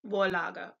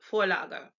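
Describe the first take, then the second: First: The word begins with a v sound. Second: The word begins with an f sound. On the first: The speaker calls it wrong. "not Vorlage" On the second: The speaker calls it right. "V is like F in Fox"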